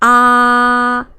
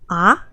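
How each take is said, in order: First: The pitch stays high and level. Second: The pitch rises from middle to high. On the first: "The first is ah, very flat" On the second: "a go up tone, like you have a question"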